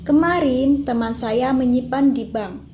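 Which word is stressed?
kemarin. The stress falls on kemarin. "kalimat pertama mendapatkan tekanan pada kemarin"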